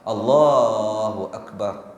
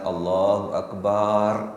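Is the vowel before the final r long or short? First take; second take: short; long. First: The vowel before the final r is kept short. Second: The vowel before the final r is drawn out long. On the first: It means God is the greatest. The speaker calls it right. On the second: It means a drum. The speaker calls it wrong.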